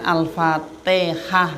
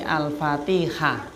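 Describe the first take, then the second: First: The t sounds like a plain local t. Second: The t is the Arabic ta, said 'ti'. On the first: The speaker calls it wrong. "Bukan Al-Fatihah nggih" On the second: The speaker calls it right. "tapi Al-Fatihah ... tak kasroh ti"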